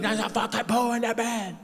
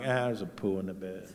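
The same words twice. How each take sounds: First: High-pitched, hammed-up freak-out; mock outrage. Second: Low, soft, unbothered acceptance; resigned. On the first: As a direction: act out a horrified panic, voice jumping high. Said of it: "I used to be like". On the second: Retold or imitated. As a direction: drop the voice, as if long used to it. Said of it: "Now I'm like".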